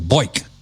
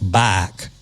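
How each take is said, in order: First: It is said with an upstate New York accent. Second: It is said with a Louisiana southern drawl.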